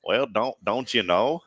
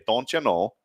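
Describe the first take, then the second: First: Attempted country accent; half-successful country accent. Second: Short demo of a Fargo accent; rounded Fargo-accent vowels. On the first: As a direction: try it with a country twang. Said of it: "now let's turn it country". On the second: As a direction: say it like a Fargo local. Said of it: "Let's say it with that accent first". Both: Shown as a demonstration.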